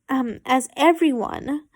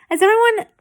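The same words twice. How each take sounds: First: Said in the usual way. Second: Higher, louder slip; high false start. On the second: Real, not acted. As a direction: blurt it high then restart.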